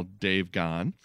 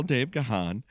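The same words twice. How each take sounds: First: "Gone" said as a single syllable; one-syllable Gone. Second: "Gahan" said guh-HAHN; two-syllable Gahan. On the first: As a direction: say the surname "Gone", with no h sound. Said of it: "I've said Gone". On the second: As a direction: sound the h in "Gahan", weight on the second syllable. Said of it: "I've heard it pronounced [name]". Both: Real, not acted.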